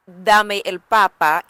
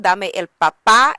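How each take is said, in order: First: "papá" stressed at the front, PA-pa, slowly; slow, with the first syllable of "papá" stressed. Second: "papá" louder on its last syllable, pa-PA; stress on final PÁ. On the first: Teacher contrasting the potato version, first-syllable stress on "papá". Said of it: "give me the potato". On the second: Teacher explaining the daddy version, final stress on "papá". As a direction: punch the end of "papá". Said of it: "Because the first one". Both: Shown as a demonstration.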